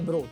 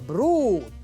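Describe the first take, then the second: First: The vowel u is short. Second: The vowel u is long.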